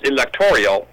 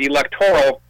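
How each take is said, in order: First: The word ends in an added '-orial' sound. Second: The word ends in a short '-oral' sound. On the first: The speaker calls it wrong. "electorial is not a word" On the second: The speaker calls it right. "electoral isn't pronounced electorial"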